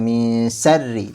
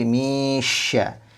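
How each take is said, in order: First: The consonant is a plain s sound. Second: The consonant is a spread sh sound. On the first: The speaker calls it wrong. "jadi bukan misarri" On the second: The speaker calls it right. "tapi misya"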